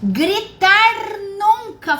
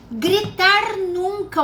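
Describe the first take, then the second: First: "Gritar nunca" lento e mais alto, "gritar" acentuado; slow emphatic. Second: "Gritar nunca" lento, "gritar" marcado, menos forte; repeated emphasis. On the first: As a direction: bater devagar em "gritar", mais agudo. (ênfase lenta e forte em "Gritar nunca") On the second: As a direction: repetir "gritar" com peso, mais contido. (ênfase lenta e moderada em "gritar") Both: Shown as a demonstration.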